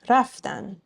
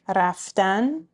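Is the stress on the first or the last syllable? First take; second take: first; last. First: The stress is on the first syllable. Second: The stress is on the last syllable. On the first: It means they went. "Next to last syllable" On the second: It is the infinitive, to go. "The infinitive"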